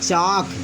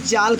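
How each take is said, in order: First: The L sound is silent, with no L heard. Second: The L sound is pronounced before the K. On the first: The speaker calls it right. "यहाँ पे यल चुप रहेगा" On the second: The speaker calls it wrong. "इसे आप भूलकर भी चाल्क मत कहिएगा"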